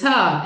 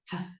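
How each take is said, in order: First: The t sound is followed by an extra vowel. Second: The t sound is clipped with no vowel after. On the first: The speaker calls it wrong. "I would say puh and buh and tuh" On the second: The speaker calls it right. "instead of"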